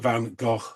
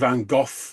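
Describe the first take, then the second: First: The name ends in a throaty sound like loch. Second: The name ends in an F sound. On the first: The speaker calls it right. "it is Van Gogh, which rhymes with Loch" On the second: The speaker calls it wrong. "Some people say Van Gogh with like a double F"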